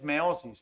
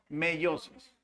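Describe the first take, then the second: First: The first syllable has a single e vowel. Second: The first syllable has an e-i vowel glide. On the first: The speaker calls it wrong. "No es meosis" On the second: The speaker calls it right. "se pronuncia meiosis"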